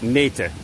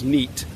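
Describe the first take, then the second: First: It is said unlike the English word neat. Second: It is said like the English word neat. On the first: The speaker calls it right. "How you pronounce neat is actually nete" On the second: The speaker calls it wrong. "that's not actually how you pronounce it"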